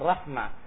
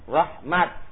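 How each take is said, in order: First: The word ends with an h sound. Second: The word ends with a t sound. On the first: "cara mewakafkannya tak diganti dengan hak" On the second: "Sebagian mereka mewakafkannya pada tak"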